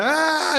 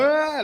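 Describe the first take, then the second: First: High mock baby cry; mock baby wail. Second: High fake wail aimed back at the baby; mock crying back. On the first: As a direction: imitate a crying baby with a high squeal. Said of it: "They be like". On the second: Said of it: "you gotta act like they crying too".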